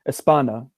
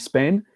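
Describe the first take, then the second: First: An extra vowel is added before the s. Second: It starts directly with the s sound. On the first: The speaker calls it wrong. "students from that country and many others could say like" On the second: The speaker calls it right. "the name of the country"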